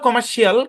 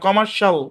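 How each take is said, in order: First: The ending has an extra 'ee' vowel: shiyal. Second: The ending is one short syllable: shal. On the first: The speaker calls it wrong. "ওই নিয়মে পড়লে কমার্শিয়াল, কিন্তু কমার্শিয়াল শুদ্ধ না" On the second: The speaker calls it right.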